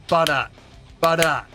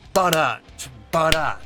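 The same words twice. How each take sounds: The two takes are said the same way.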